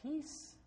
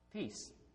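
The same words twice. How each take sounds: First: It is said as a question, rising. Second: It is said as a plain statement, falling.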